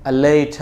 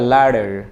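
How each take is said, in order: First: The t is a crisp, clear t sound. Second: The t is softened into a d-like sound. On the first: "এটা ব্রিটিশরা বলবে" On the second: "আমেরিকানরা তো টিটাকে ডি বলে ফেলবে"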